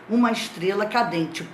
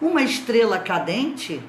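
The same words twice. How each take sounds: First: It is said as a plain statement. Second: It is said as a rising question.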